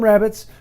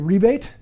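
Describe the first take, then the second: First: The word is pronounced like 'rabbit'. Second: The word is pronounced like 'ree-bate'. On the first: This is how the speaker says it. "So I call them rabbits" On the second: This is how British English speakers say it. "British English, um, this will be called a rebate"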